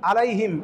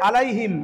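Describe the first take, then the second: The two takes are said the same way.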